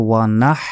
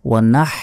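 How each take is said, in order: Both takes have the same delivery.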